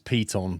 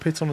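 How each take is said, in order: First: The first syllable sounds like pee. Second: The first syllable sounds like pit.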